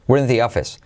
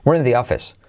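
Both takes have the same delivery.

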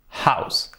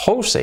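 First: Said in the usual way. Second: "house" read as HO-u-seh, high; Spanish-style "house", vowels as written; spelling pronunciation. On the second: Shown as a demonstration. Teacher showing the familiar word for casa, spelled-out reading. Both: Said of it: "todos pronunciamos bien house".

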